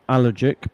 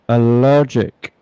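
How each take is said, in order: First: The stress is on the first syllable. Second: The stress is on the second syllable. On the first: The speaker calls it wrong. "not allergic" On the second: The speaker calls it right. "the adjective form has a syllable two stress"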